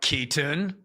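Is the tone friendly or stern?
stern. It is said in an intense, stern tone.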